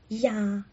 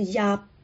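First: The word ends with the mouth open. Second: The word ends with the lips closed. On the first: The speaker calls it right. "压是打开的" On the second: The speaker calls it wrong. "如果你闭上嘴巴就是压，那个音就不对了"

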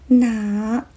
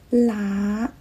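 First: The word begins with an N sound. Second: The word begins with an L sound. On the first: The speaker calls it right. "我是喜欢坚持用呢开头的哪" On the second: The speaker calls it wrong. "有人发成啦"

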